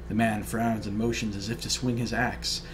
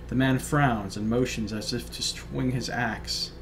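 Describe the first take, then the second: Both takes have the same delivery.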